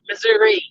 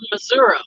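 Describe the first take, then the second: First: It is said in a Kansas City accent. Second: It is said in a southern Missouri accent.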